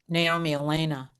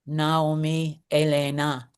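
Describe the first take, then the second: First: The name is pronounced the English way. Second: The name is pronounced the Spanish way.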